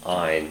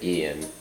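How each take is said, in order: First: It does not sound like the name Ian. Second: It sounds like the name Ian. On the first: This is probably the intended pronunciation. "It's probably pronounced Ein" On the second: This is how the speaker habitually says it. "but I always pronounced it Ian"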